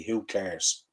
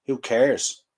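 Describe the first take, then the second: First: Said in the usual way. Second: Indignant repeat. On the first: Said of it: "So let me quote". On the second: Real, not acted. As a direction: fire the words back at the manager. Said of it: "That man on the screen cares".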